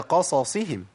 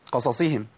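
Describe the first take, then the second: First: Both s-sounds are pronounced fully with their vowels. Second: The two s-sounds blur together, vowels rushed. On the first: The speaker calls it right. "هي قصصهم" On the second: The speaker calls it wrong. "كتير من الناس بيقول قصصهم، قصصهم كده. ... اختلست من الحركات"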